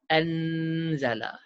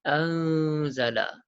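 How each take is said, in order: First: The n is clear, tongue touching the palate. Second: The n is hidden and nasal, tongue not touching. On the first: The speaker calls it wrong. "Bukan anzala. Itu kena lelang, ujung lidah kena lelangit atas" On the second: The speaker calls it right. "lidah kita tak sampai pun ke lelangit atas. Disertai dengung dua harakat"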